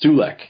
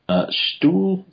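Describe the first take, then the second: First: The name is said as two syllables, stoo-lek. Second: The name is said as one syllable, like stool. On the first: The speaker calls it right. "that's better" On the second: The speaker calls it wrong. "I think I said that wrong"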